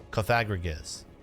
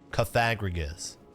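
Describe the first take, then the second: No difference in how they are said.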